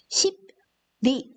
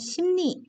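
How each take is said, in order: First: Each letter is sounded just as it is written. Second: The consonants blend into different, assimilated sounds. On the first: The speaker calls it wrong. "십리 이렇게 읽지 않죠?" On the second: The speaker calls it right. "빨리 읽으면 심리 이렇게 들립니다"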